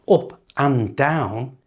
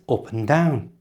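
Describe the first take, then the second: First: And is said in full with its d. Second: And is reduced to a short un. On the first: The speaker calls it wrong. "It's not up and down" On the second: The speaker calls it right. "it's up and down"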